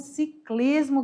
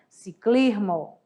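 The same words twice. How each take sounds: First: The S sound is pronounced fully. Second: The S sound is suppressed.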